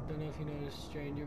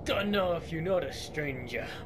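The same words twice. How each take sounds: First: It is said in the speaker's normal voice. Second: It is said in a put-on character voice.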